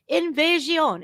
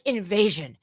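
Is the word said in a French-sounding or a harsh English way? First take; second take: French-sounding; harsh English. First: It is said syllable by syllable, French-sounding. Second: It is said bluntly, in plain English. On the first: "it sounds French" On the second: "It sounds so harsh"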